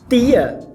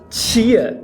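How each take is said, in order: First: The t is a plain, hard t sound. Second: The t is palatalized toward a ch sound. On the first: "ao invés de falar tia" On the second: "a gente fala tia"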